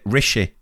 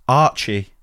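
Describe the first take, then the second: First: The name begins with an R consonant. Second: The name begins with an 'ar' vowel. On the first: This was a guess from the spelling. The speaker calls it wrong. "we pronounced it Rishi" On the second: This is the name as the family says it. The speaker calls it right. "Later found out it's Archie"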